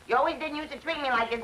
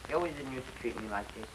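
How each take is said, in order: First: It is said loudly and clearly. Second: It is mumbled quietly and unclearly.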